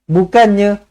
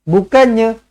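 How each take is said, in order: No difference in how they are said.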